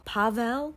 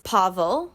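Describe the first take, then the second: First: "Pavel" as PAH-vell, questioning; unsure pronunciation attempt. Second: "Pavel" as PAH-vul; first pronunciation attempt. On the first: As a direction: say "Pavel" with a clear e in the ending. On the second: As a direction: say "Pavel" with a reduced second vowel. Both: Shown as a demonstration. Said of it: "I don't know. I'm trying".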